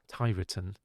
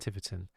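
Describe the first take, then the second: First: It is said the way the speaker first said it. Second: It is said the way the locals say it. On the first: This is how the speaker said it before being corrected. The speaker calls it wrong. "I called it um, Tiverton" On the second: This is how people there say it. The speaker calls it right. "rather than Tiverton"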